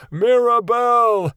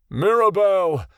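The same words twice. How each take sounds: First: Much higher and louder, slow long frantic bellow; desperate shout. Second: A higher, louder call of a name; crying out. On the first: Father frantically searching below, a desperate drawn-out shout. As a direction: stretch the name out in a frantic yell. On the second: Father calling out for his daughter, a loud cry. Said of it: "Ionin cried". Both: A narrator's reading.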